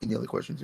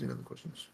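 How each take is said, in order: First: Said in the usual way. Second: Much lower and quieter any other questions; deep joke voice. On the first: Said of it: "repeated question". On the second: Pretend. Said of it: "joking low repeat".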